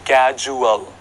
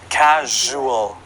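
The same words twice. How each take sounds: First: The middle consonant is not a zh sound. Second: The middle consonant is a zh sound. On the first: The speaker calls it wrong. "We don't say casual" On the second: The speaker calls it right. "It is casual"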